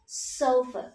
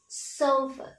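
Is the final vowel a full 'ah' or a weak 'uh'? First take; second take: weak 'uh'; weak 'uh'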